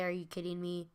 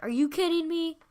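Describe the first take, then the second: First: Quiet version. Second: High, loud, stressed on kidding; high loud indignant shout; loud outburst. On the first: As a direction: say it under your breath. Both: Retold or imitated. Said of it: "I didn't say".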